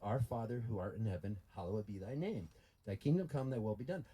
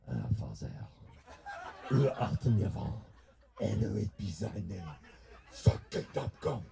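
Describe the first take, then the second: First: It is said in a plain accent. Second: It is said in a French accent.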